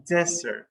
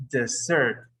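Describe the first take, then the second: First: Desert with the weight up front, DEZ-ert; stress on first syllable. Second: Desert stressed on the end, di-ZERT; stress on second syllable. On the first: Teacher names the dry place, desert stressed on the first syllable. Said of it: "that dry place is pronounced". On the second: Teacher models the verb for abandoning, desert stressed on the second syllable. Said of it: "they desert". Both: Shown as a demonstration.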